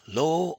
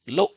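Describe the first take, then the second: First: The tone is longer and not cut off. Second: The tone is short and abruptly cut off. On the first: The speaker calls it wrong. "You should not be pronouncing in a different tones" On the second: The speaker calls it right. "the short, abrupt tone, as if you've been interrupted mid-sentence"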